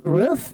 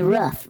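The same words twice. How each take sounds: First: "Roof" said ROOF with a long oo, higher; raised, questioning "Roof" with long oo. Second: "roof" said RUFF; short-vowelled "roof", like ruff. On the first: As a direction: ask "Roof?" with the vowel of "food". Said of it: "You say roof". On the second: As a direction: say "roof" rhyming with "tough". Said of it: "How do you say roof". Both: Shown as a demonstration.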